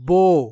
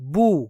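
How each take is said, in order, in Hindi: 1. यह स्वर 'go' के 'o' जैसा लगता है। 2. यह स्वर 'put' के 'u' जैसा लगता है। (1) "मैं अभी आपके सामने पेश को मजहूल पढ़ता हूँ" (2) "सही तरीका ये है"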